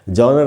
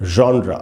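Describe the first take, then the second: First: The word ends on a bare r sound. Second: The word ends with a short vowel after r. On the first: The speaker calls it wrong. "इसको लोग जॉनर बोलते हैं, जॉनर जॉनर नहीं है" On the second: The speaker calls it right. "इसका उच्चारण है जॉनरा"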